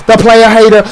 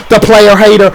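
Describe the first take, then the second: No difference in how they are said.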